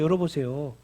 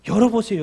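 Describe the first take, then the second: First: Said in the usual way. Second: Loud call. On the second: Shown as a demonstration. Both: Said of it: "그리고 뭐 해야 돼요?".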